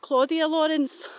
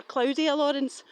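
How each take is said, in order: First: "Claudia" said as KLAW-dee-uh; first pronunciation. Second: "Claudia" said slowly as KLOW-dee-uh; alternative pronunciation. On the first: Speaker recalling a missing woman's name, "Claudia" as KLAW-dee-uh. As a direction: say "Claudia" with an AW vowel. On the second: Speaker offering another version of the name, "Claudia" as KLOW-dee-uh. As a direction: say "Claudia" to rhyme with "cloudier". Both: Real, not acted. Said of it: "or Claudia Lawrence".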